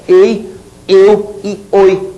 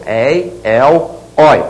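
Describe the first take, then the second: First: "ei, eu e oi" slowly, with closed ê and ô; closed diphthongs. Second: "Ei, el, oi" one by one, with open é and ó; open diphthongs. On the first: Teacher listing the diphthongs without accent, closed sound. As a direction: keep the vowels closed in "ei, eu e oi". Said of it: "tem um som fechado". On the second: Teacher listing the diphthongs that take accents, open sound. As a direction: open the vowels wide in "Ei, el, oi". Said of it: "o ditongo aberto". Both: Shown as a demonstration.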